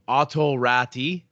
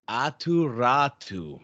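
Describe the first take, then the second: First: The name is said with a plain English r. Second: The name is said with a rolled r. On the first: The speaker calls it wrong. "I'm gonna mispronounce his name" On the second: The speaker calls it right. "little roll of the tongue"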